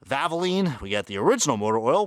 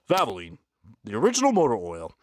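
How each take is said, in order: First: It is said in his normal voice. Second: It is said in a put-on deep voice.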